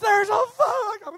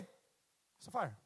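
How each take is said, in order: First: It is said in a panicked, frantic way. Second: It is said in a calm, unworried way.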